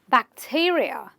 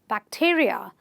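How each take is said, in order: First: The stress falls on the syllable before the suffix. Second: The same.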